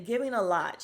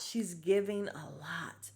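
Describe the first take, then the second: First: Said in the usual way. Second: Slow and drawn out, a bit softer; drawn-out knowing repeat; slow emphatic repeat. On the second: Shown as a demonstration. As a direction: stretch every word out to savor it.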